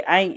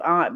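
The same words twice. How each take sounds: First: "aunt" said like "ain't". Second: "aunt" with a broad "ah" vowel; "aunt" as "ahnt". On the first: Mother showing how she wants her girl to say it, "aunt" like "ain't". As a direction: rhyme "aunt" with "paint". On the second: Mother showing the other form, "aunt" said "ahnt". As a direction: say "aunt" to rhyme with "font". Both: Shown as a demonstration. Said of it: "to say "aunt" as aunt".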